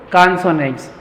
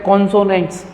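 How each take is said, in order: First: कॉन्सोनेंट्स with an open "kaan" at the start; correct pronunciation. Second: कॉन्सोनेंट्स with a round "kon" at the start; mispronounced consonants. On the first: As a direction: model कॉन्सोनेंट्स as "KAAN-so-nents". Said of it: "ये क्या होता है बच्चों". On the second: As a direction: say कॉन्सोनेंट्स as "KON-so-nents", the pupils' way. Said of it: "कॉन्सोनेंट्स नहीं होता". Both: Shown as a demonstration.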